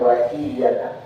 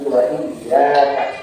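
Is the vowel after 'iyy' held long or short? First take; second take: short; long. First: The vowel after the double y is short. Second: The vowel after the double y is long. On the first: The speaker calls it wrong. "Jangan wa iyyaka" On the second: The speaker calls it right. "tapi wa iyyaka"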